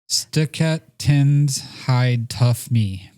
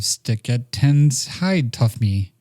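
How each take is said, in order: First: The words are said separately and choppily. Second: The words are blended smoothly into one phrase. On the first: The speaker calls it wrong. "when you say it like that, it's kind of rough" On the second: The speaker calls it right. "But then if you go"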